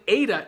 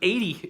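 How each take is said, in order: First: The name ends with an 'ah' sound. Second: The name ends with an 'ee' sound. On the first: The speaker calls it right. "when it's actually Ada" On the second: The speaker calls it wrong. "I called it eighty"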